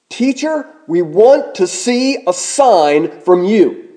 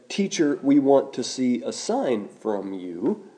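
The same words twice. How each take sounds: First: It sounds like an insistent, forceful demand. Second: It sounds like a polite, mild request. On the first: They insist on proof before any belief. The speaker calls it right. "we should read it this way" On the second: They are sincerely asking for proof. The speaker calls it wrong. "we often read the request from the Bible with the wrong tone"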